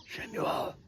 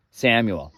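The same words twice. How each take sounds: First: Whispered echo. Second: Said in the usual way. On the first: Shown as a demonstration. Name echoed in a whisper.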